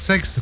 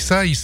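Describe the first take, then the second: First: It has one syllable, like sex. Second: It has two syllables, like sa-ees. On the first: The speaker calls it wrong. "et non pas sexe, comme certains visiteurs le prononcent" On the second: The speaker calls it right.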